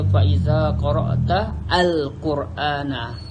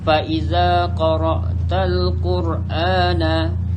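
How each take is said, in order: First: The vowel before 'al' is sounded separately. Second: The words run together, skipping that vowel. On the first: The speaker calls it wrong. "Kita tak baca" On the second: The speaker calls it right. "Jadi alif ni tak bunyikan dia sebab dia hamzah wasal"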